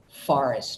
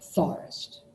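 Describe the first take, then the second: First: The word begins with an F sound. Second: The word begins with a TH sound. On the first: This is the usual adult pronunciation. "instead of saying forest" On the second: A young child cannot yet make the F sound. "she substitutes a, I don't know, T H in there"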